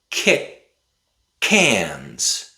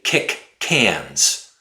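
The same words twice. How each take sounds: First: The k of kick is a glottal stop. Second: The k of kick is fully released. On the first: The speaker calls it right. "We would say kick cans. We stop the air in our throat" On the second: The speaker calls it wrong. "we don't say kick cans"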